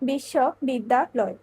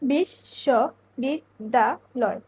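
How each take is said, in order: First: The word is split into three separate chunks. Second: The word is split into five separate chunks. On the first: "এক্ষেত্রে অক্ষর হচ্ছে তিনটি" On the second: "এক্ষেত্রে অক্ষর হচ্ছে পাঁচটি"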